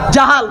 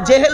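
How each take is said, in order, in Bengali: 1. শব্দটি 'a' স্বরধ্বনি দিয়ে বলা হয়। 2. শব্দটি 'e' স্বরধ্বনি দিয়ে বলা হয়। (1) "জাহাল শব্দটা কি বললাম?" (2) "জেহেল বলবেন না"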